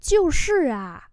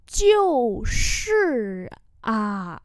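First: Said in the usual way. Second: Very drawn-out syllables; slow, separated syllable demonstration; slow model pronunciation. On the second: Shown as a demonstration. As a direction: say it slowly for learners. Teacher repeats phrase slowly.

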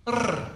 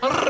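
First: A soft trilled rrr, tongue relaxed; rolled R demo. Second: A relaxed, trilled rrr; rolled R demo. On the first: Mexican man teaching how to roll the R, soft trilled rrr. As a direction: blow out a quiet rolling rrr. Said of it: "Top of your mouth, just blow". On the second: Mexican man showing again how to roll the R, trilled rrr. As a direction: let the tongue flutter on rrr. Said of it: "relax your tongue while it". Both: Shown as a demonstration.

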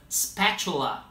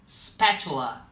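Both takes have the same delivery.

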